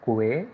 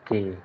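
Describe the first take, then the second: First: It does not sound like the letter K. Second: It sounds just like the letter K. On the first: The speaker calls it wrong. "it is not que" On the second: The speaker calls it right. "K, just the letter K, that is the pronunciation"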